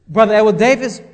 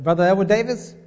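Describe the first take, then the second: First: Name called out louder; stern self-summons, voice raised. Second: Said in the usual way. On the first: Retold or imitated. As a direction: call your own name out like a rebuke. Calling himself by name, repeated.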